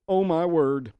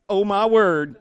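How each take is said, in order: First: Amazed exclamation. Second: Sassy, louder "Oh, my word"; with attitude. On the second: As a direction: toss it off with attitude. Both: Shown as a demonstration. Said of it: "You can even say it with attitude".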